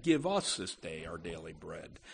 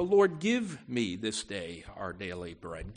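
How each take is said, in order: First: "us" leaned on, softer and lower; stress on us. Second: Said in the usual way. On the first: Shown as a demonstration. Preacher contrasting "me" with "us" for the congregation, stressing "us". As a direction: press gently on "us" as a shared prayer. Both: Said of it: "it's a public appeal".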